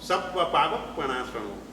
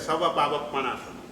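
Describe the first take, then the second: First: The first word has a doubled consonant. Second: The first word has a single consonant. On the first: It destroys all sins. The speaker calls it right. "સર્વ પાપનો નાશ કરનાર છે" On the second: It destroys the sins of a corpse. The speaker calls it wrong. "સબ્બના બદલે સવ બોલાઈ ગયું એટલે અર્થનો અનર્થ થઈ ગયો"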